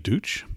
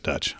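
First: The vowel sounds like the one in 'food'. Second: The vowel sounds like the one in 'cut'. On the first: A possible but less likely pronunciation. "It could be Dooch" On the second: The pronunciation believed to be correct. "but I think it's Dutch"

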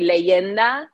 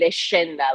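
First: The middle consonant is a y sound. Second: The middle consonant is an sh sound. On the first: This is how other Spanish speakers would say it. "someone else would probably say Leyenda" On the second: This is how an Argentine Spanish speaker says it. "I would say Leshinda, like SH sound"

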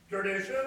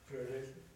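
First: It is said loudly in a booming voice. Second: It is said at normal volume.

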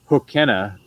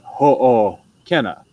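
First: The two O vowels run together without a break. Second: A short break separates the two O vowels. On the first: The speaker calls it wrong. "instead of" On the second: The speaker calls it right. "you have this like space"

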